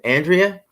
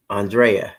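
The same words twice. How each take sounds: First: "Andrea" stressed on the first syllable, AN-dree-uh; AN-dree-uh pronunciation. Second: "Andrea" with DRAY in the middle; ahn-DRAY-uh pronunciation. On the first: Host asking a viewer about her name, "Andrea" said AN-dree-uh. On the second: Host trying another version of viewer's name, "Andrea" said ahn-DRAY-uh. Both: Shown as a demonstration. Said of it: "so many different ways of saying it".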